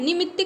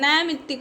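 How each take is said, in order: First: The first vowel is a short 'i'. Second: The first vowel is the diphthong 'ai'. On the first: The speaker calls it wrong. "निमित्तिक नहीं होता" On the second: The speaker calls it right. "नैमित्तिक होता है"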